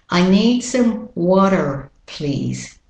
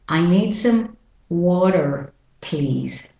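Both takes have the same delivery.

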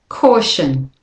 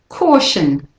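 Both takes have the same delivery.

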